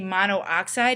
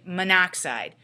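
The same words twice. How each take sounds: First: The two o vowels are said separately. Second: The two o vowels blur into one. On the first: The speaker calls it wrong. "we typically wouldn't say monoxide" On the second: The speaker calls it right. "It sort of blurs together, so you would say monoxide"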